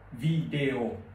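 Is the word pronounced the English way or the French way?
French. The word is pronounced with French sounds.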